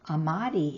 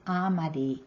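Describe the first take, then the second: First: The stress is on a later syllable. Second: The stress is on the first syllable. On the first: This is the Mountain Maidu form. "Amari in Mountain Maidu" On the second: This is the Concow form. "it's Amari with the stress on the first part of the word"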